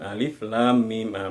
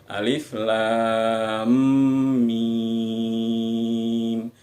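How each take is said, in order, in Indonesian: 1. Bunyi m pada mim tidak ditahan. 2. Bunyi m pada mim ditahan dua ketukan. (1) "lam masuk ke mimnya itu tidak ditahan. Nah, itu keliru, salah" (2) "m-nya itu ditahan dua ketukan"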